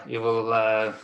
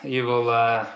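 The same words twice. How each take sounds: The two takes are said the same way.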